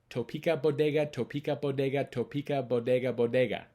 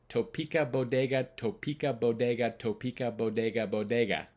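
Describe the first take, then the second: Both takes have the same delivery.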